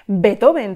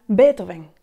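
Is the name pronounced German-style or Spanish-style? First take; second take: Spanish-style; German-style. First: The name is pronounced the usual Spanish way. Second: The name is pronounced the original German way. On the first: The speaker calls it wrong. "como solemos decir en castellano" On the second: The speaker calls it right. "la sonoridad real del apellido"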